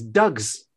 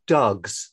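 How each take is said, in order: First: "Dogs." in a broad Glaswegian accent. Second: "dogs." said carefully the proper English way, no Glasgow vowel; careful standard English "dogs.". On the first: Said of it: "Very, very Glaswegian". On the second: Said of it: "I have to really concentrate to say that word". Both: Shown as a demonstration.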